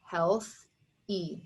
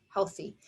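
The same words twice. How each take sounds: First: "Health, E" with a clear pause before the "E"; syllable-by-syllable "Health, E"; divided into syllables. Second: Said in the usual way. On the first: Shown as a demonstration. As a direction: say "Health", stop, then a separate "E". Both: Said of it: "you would divide it here".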